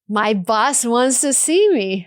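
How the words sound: The voice sounds happy and hopeful. The speaker expects good news. "feels like I'm about to get good news, maybe even a promotion"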